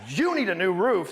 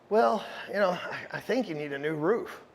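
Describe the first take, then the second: First: It is said firmly and confidently. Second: It is said hesitantly and uncertainly.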